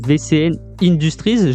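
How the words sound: Industries is pronounced the English way. The speaker calls it wrong. "je l'ai dit à l'anglaise"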